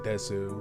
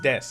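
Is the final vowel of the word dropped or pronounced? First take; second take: pronounced; dropped. First: The final u vowel is fully pronounced. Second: The final u vowel is dropped. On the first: The speaker calls it wrong. "I said Desu" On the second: The speaker calls it right. "it's Des"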